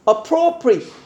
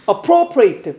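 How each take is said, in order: First: The final syllable is a short, weak 'it'. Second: The final syllable is a full 'eight' sound. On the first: It means suitable. "이렇게 발음하면 이시지 적합한이라는 뜻의 형용사" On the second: It means to take something for one's own use. "끝에가 ate로 끝나면"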